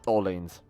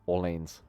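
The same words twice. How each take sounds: First: It is said with an American pronunciation. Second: It is said with a non-American pronunciation.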